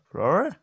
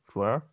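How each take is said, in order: First: High, loud rising call. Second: Said in the usual way. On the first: Acted. Searching for the missing Flora, calling out louder. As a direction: call the name out, pitched up.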